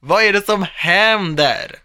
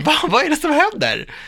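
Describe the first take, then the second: First: Loud, high, drawn-out question; slow, emphatic playful demand; mock interrogation. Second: High, loud startled question; hammed-up bewildered outburst; mock alarm. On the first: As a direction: stretch every word, hammed up. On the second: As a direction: play up the suspicion in a high pitch. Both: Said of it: "jag blir så här".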